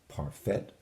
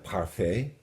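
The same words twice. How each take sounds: First: The final T is sounded, English style. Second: The final T is silent, French style. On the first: The speaker calls it wrong. "not a parfait" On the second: The speaker calls it right. "which would be a parfait"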